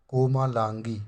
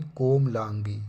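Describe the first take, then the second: First: कोमालांगी with long maa; wrong form. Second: कोमलांगी as kom-laan-gi, slow; correct form. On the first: Teacher showing the error, कोमालांगी with long maa. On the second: Teacher correcting it, कोमलांगी with short middle. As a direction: say कोमलांगी without long aa after m. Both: Shown as a demonstration. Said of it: "कोमा नहीं".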